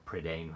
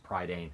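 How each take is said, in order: First: Prydain with a short first vowel, prih-DAIN; alternative pronunciation. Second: Prydain with first syllable like "pry"; PRY-dain pronunciation. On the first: Book reviewer offering another reading, Prydain said prih-DAIN. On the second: Book reviewer naming the series, Prydain said PRY-dain. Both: Shown as a demonstration. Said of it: "however you wanna pronounce it".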